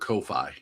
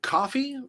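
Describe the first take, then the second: First: It sounds like the name Kofi. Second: It sounds like the drink coffee. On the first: "I've always said it Kofi" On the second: "You pronounce it coffee?"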